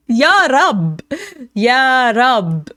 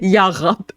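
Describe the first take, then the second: First: Louder, higher mock Israeli accent. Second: Imitating an Israeli accent; mock Israeli accent. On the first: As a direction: belt Ya Rab in a hammy Israeli accent. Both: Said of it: "an Israeli accent".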